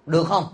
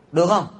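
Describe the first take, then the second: First: Said in the usual way. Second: Được không? asked again, a bit more firmly and pointedly; preacher pressing the audience to answer, insistent; insistent repeat. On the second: Shown as a demonstration.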